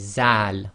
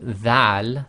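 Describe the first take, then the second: First: It begins with a 'z' sound. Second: It begins with a voiced 'th' sound. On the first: The speaker calls it wrong. "they say zal, which is wrong" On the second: The speaker calls it right. "instead of saying dhal"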